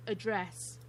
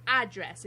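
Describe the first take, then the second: First: "address" stressed on the second syllable; back-stressed "address", British style. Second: "address" stressed on the first syllable; front-stressed "address", American style. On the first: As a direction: say address as uh-DRESS. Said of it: "instead of address". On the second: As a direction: say address as AD-dress. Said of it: "You guys say address instead of". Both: Shown as a demonstration.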